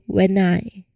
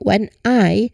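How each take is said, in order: First: The two words are blended into one. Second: The two words are said separately. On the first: This is the informal, conversational delivery. "usually in fast and connected speech, we say when I. We connect the two words" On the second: This is the formal, careful delivery. "instead of saying when I"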